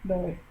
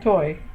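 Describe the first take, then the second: First: The word begins with a soft d sound. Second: The word begins with a sharp t sound. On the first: The speaker calls it right. "It sounds more like doi" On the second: The speaker calls it wrong. "more like doi than toy"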